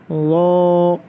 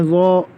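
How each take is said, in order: First: The vowel ends softly without a glottal catch. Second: The vowel ends in a sharp glottal catch. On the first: The speaker calls it right. "ना ज़्यादा खींचना है।" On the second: The speaker calls it wrong. "बहुत से बच्चे कहते हैं वो, तो अलिफ हमज़ा की आवाज़ नहीं निकालनी है।"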